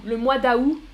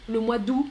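First: D'août in two syllables, silent T. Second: D'août in one syllable, silent T; d'août as "doo". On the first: Teacher demonstrates Canadian form, d'août as "da-oo". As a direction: sound the A in d'août, drop the T. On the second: Teacher demonstrates Canadian form, d'août as "doo". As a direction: drop both A and T in d'août. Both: Shown as a demonstration. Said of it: "pas de T final prononcé".

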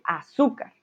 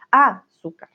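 First: "azúcar" with the weight on ZÚ; stress on middle syllable. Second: "azúcar" with the first A punched and set apart; stress on first syllable. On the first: Teacher contrasting accent positions, stressing the middle syllable of "azúcar". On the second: Teacher contrasting accent positions, stressing the first syllable of "azúcar". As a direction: hit the opening A of "azúcar", letting "zúcar" drop. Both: Shown as a demonstration. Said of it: "no es lo mismo decir".

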